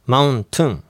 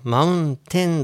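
First: The last syllable sounds like a reduced tun. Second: The last syllable sounds like a full ten. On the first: The speaker calls it right. "正しくはmountain、ten じゃなくてtun なんですよ" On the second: The speaker calls it wrong. "mountain だと思ってる人が多いんですけど"

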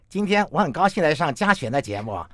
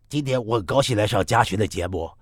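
First: The mouth is flattened, giving a throaty tone. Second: The nasal voice is pitched lower and deeper. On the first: "那如果你把嘴扁扁的呢？ 喉音就变多了" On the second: "那同样鼻腔共鸣声音再低一点呢？"

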